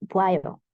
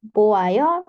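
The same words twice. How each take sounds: First: "boayo" shortened to "bwayo"; contracted form. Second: "Boayo" slow, with O and A sounded separately; uncontracted form. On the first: Teacher showing the shortened form, "boayo" merged to "bwayo". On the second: Teacher showing the form before shortening, "Boayo" with separate vowels. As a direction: stretch "Boayo" out in full, vowels apart. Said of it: "Boayo disingkat". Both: Shown as a demonstration.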